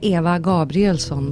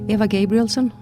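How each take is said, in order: First: The name is said with Swedish pronunciation. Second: The name is said with English pronunciation. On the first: "In Swedish you'd say" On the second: "if I myself would say it in English"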